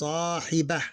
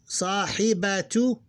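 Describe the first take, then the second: First: The word ends in a short h sound. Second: The word ends with a full -tu syllable.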